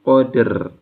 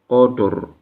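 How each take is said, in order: First: Both the d and the r are thin. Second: Both the d and the r are thick. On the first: "Jangan sampai juga roknya ke bawah tipis" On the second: "Jangan sampai dalnya ke bawah tebal"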